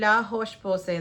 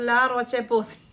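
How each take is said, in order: First: Roche has a throaty r and a final sh. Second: Roche has an English r and a ch sound. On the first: This is how the makers say it. "അവർ പ്രൊനൗൺസ് ചെയ്യുന്നതെന്ന് തോന്നുന്നു" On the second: This is how people here say it. "നമ്മളിതിന് പ്രൊനൗൺസ് ചെയ്യുന്ന"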